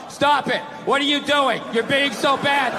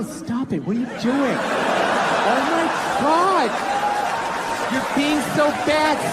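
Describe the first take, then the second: First: It is read out in a flat, dull tone. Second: It is said in a playful, teasing tone.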